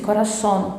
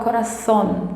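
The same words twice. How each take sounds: First: The z is a plain s sound. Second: The z is a th sound, tongue between teeth. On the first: "Na América, não, eles vão falar como eu disse, corazón, como se fossem dois S's" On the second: "na Espanha eles vão falar corazón, como se tivesse a língua entre os dentes"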